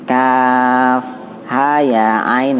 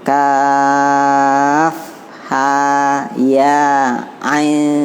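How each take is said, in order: First: The letter names are short and run together. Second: The letter names are held long with breaks. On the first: "Kalau nyambung kan begitu. Kalau dia satu pendek" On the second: "Tapi kalau dua kan putus"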